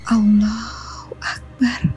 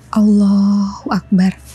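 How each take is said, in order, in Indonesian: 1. Diucapkan dengan suara yang sangat lembut. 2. Diucapkan dengan suara normal.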